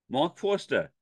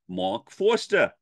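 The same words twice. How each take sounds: First: It is said in a New York accent. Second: The same.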